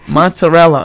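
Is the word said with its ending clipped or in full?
full. The word is read plainly with all syllables. The speaker calls it right. "just read it. If you say it like that, no one gets mad at you"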